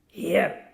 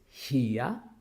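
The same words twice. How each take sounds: First: The final R sound is pronounced. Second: The final R sound is silent. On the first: The speaker calls it wrong. "We find so many students saying here, here, but that's wrong" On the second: The speaker calls it right. "the English sound R remains silent after a vowel sound"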